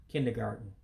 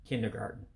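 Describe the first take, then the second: The two takes are said the same way.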